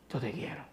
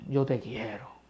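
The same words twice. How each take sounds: First: Much softer, barely voiced; near whisper. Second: Softer, lower, subdued; quiet answer. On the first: Peter repeating his answer to Christ, fading to a near whisper. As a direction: let it fade to almost nothing. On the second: Acted. Ashamed Peter answering Christ at the fire, quiet and low. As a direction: say it small and ashamed.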